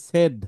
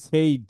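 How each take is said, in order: First: "said" as "sed", short e; correct pronunciation of said. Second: "said" as "sayd", with an ay glide; Bengali mispronunciation of said. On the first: Teacher corrects the class, "said" with short e. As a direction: say "said" to rhyme with "bed". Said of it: "এটাকে বলা হয় said". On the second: Teacher shows how Bengalis say "said", as "sayd". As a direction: say "said" to rhyme with "made". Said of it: "আমরা বাঙালিরা বলি said". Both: Shown as a demonstration.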